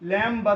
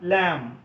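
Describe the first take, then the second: First: The word ends with an audible b sound. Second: The word ends on m with silent b. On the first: The speaker calls it wrong. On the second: The speaker calls it right.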